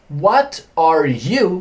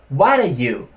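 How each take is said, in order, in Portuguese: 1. Cada palavra é pronunciada separadamente e por completo. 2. As palavras se fundem em um único bloco reduzido. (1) "Perceba que esse What are you"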